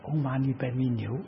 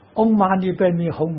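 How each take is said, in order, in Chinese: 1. 最后一个音节念 niu。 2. 最后一个音节念 hong。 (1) "他念的是嗡嘛呢呗咪牛" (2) "您念这个字音念错了啊"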